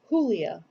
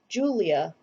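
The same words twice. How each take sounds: First: The name is said with a Spanish pronunciation. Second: The name is said with an English pronunciation. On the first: This is the name's original pronunciation. The speaker calls it right. "instead of" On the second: This is how the new neighbors said the name. The speaker calls it wrong. "the neighbors, who became mother's friends, pronounced her name"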